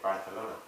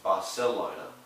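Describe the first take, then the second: First: The 'c' is said with a lisp, like th. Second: The 'c' is said as a plain s sound. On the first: This is how people in Spain say it. "in Spain, they the they say Barcelona" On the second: This corrects the king's way of saying it. "no, sir, it's, Bar- it's Barcelona"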